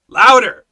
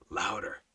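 First: Very loud, high, insistent order; booming retold command; commanding shout. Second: Soft, low repeat of the order; understated, lowered-voice prompt; hushed command. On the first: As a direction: push it harder, a full shouted demand. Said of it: "So I read it louder". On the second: Retold or imitated. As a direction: say it low, quietly insistent. Repeated command now voiced very softly.

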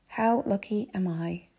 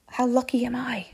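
First: Slow savouring. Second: Higher, lightly marvelling self-talk; mildly thrilled. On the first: Traveller reminding herself of her luck, slowly savouring. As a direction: let each word sink in. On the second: Traveller alone bound for a hotel, mildly thrilled. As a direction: count your luck with a lift. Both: Retold or imitated.

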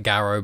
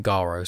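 First: First a of Garo short, as spelt; spelling-based pronunciation. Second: Open, long first vowel in Garo; preferred pronunciation. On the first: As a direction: say Garo as it looks, rhyming with arrow. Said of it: "It kinda looks like Garo". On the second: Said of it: "I kinda prefer saying Garo". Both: Shown as a demonstration.

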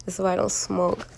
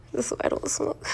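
First: Said in the usual way. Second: Breathy stoned giggle through words; giggling. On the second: Real, not acted. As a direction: laugh it out, hushed. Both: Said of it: "I'm high as shit right now".

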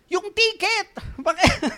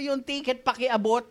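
First: Sudden shout across the bus, high and loud. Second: Said in the usual way. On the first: Retold or imitated. Passenger on a bus yelling at a distracted seatmate, loud shout. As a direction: yell for the ticket to be passed. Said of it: "ang lakas na ng boses ko". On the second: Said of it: "Sabi ko".

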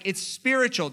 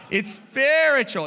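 First: Said in the usual way. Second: Spiritual stretched slow and loud; stress on spiritual. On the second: Real, not acted. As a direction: lean hard on spiritual. Emphatic slowed repeat.

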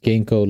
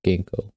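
First: "ginkgo" said with a hard g, like the herb. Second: "ginkgo" repeated slowly, hard g, like the herb. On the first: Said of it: "it's pronounced ginkgo like the herb". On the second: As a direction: say "ginkgo" clearly after spelling it. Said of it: "it's pronounced ginkgo". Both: Shown as a demonstration.

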